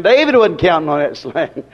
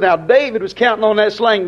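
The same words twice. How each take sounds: First: "wasn't" stressed, voice dropping lower and lifting at the end; firm correction. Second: Skeptic's line with "was" leaned on, falling at the end; mock wrong claim. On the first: Shown as a demonstration. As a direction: set the record straight on "wasn't". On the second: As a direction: quote the doubter, landing on "was counting". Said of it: "Somebody said".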